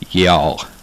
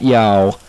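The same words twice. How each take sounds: First: The vowel is kept short and quick. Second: The vowel is stretched out long. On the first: The speaker calls it right. "That's how you say it" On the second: The speaker calls it wrong. "Not y'all. / We don't drag it out for like an hour"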